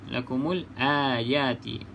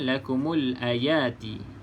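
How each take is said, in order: First: The vowel in 'ayati' is held long. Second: The vowel in 'ayati' is held short. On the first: The speaker calls it right. "Puan Kheti baca panjang" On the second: The speaker calls it wrong. "Puan bagi tahu pendek"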